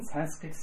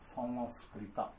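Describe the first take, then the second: First: The name ends with a bare t sound. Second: The name ends with a full ta syllable. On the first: This is how English speakers say the name. "イギリス人サンスクリット、サンスクリット言っています" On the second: This is the original form of the name. "本当の言葉はサンスクリタ"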